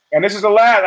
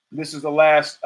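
First: "last" hervorgehoben, lauter und höher; stress on last. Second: Said in the usual way. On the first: Shown as a demonstration. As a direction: den Satz mit Nachdruck auf "last" beginnen.

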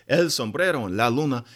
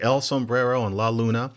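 First: El Sombrero and La Luna with a Spanish accent. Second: Said in the usual way. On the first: Shown as a demonstration. Correcting himself into a Spanish accent for El Sombrero and La Luna. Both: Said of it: "To really use the accent".

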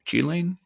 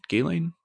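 First: Ghislaine with a soft "sh" start, like "shee-lane", asked as a question. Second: Ghislaine with a hard "g" start, like "ghee-lane", asked as a question. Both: Shown as a demonstration. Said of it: "I've heard both".

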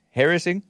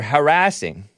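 First: Harassing with the stress on HAR; stress on first syllable. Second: Harassing with the stress on RASS; stress on second syllable. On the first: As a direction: say harassing as HAIR-uh-sing, higher and rising. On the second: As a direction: say harassing as huh-RASS-ing. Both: Shown as a demonstration. Says the word both ways.

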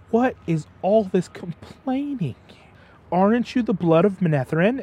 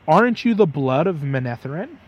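First: Mock scolding. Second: Said in the usual way. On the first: Mentor scolding three frightened boys, in a lightly acted stern voice. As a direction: scold them like a disappointed mentor. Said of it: "starts to scold all three".

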